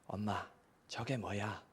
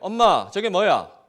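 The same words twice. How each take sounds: First: It is said at normal, soft volume. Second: It is said louder still, the loudest.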